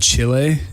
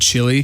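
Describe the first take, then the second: First: It is said with a Spanish pronunciation. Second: It is said with an English pronunciation. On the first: "notice how I said Chile" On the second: "instead of Chile"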